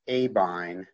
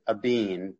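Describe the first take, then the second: First: The last syllable has an 'eye' vowel. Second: The last syllable has an 'ee' vowel. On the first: This is the customers' pronunciation, which the company adopted. "all of our customers started to pronounce it Abine" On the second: This is the company's original pronunciation. "we used to pronounce it Abeen"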